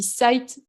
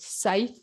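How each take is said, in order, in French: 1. Le mot se prononce sans son th. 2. Le mot se prononce avec un son th. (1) "je pense que je vais mal le prononcer, moi je dis Scythe" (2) "il y a un petit TH à mettre, ça doit être Scythe"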